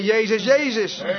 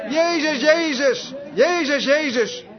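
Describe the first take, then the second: First: Said in the usual way. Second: High, repeated calls on the name; imitated cry. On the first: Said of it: "Ik zei". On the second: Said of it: "Op die manier". (nagedane hoge, herhaalde uitroep)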